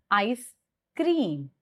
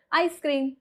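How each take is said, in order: First: ICE, then a pause, then CREAM; two words, ICE ... CREAM; juncture pause. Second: ICE CREAM run together, high on ICE; joined-up ICE CREAM; simple, no pause. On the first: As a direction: separate "ice" and "cream" clearly. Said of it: "that is pause". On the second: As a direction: say "ice cream" as one quick unit. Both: Shown as a demonstration.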